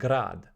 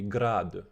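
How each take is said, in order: First: The word ends on the consonant d. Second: The word ends with a short vowel after d. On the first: The speaker calls it wrong. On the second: The speaker calls it right.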